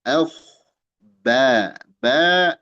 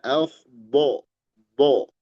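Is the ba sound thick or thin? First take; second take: thin; thick. First: The ba sounds light with an open a. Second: The ba sounds heavy and rounded like bo. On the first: The speaker calls it right. "dibaca tipis" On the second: The speaker calls it wrong. "Kita jangan baca"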